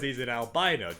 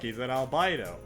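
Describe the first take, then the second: First: It is said in a put-on character voice. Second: It is said in a natural voice.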